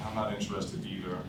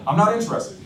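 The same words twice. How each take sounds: First: Softer, low-key echo of the refusal; flat, uninterested. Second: Irritated brush-off. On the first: Shown as a demonstration. Salesman mirroring the prospect's refusal, much softer. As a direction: toss it back like you couldn't care less. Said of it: "I didn't get excited". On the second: Acted. Annoyed prospect on the phone.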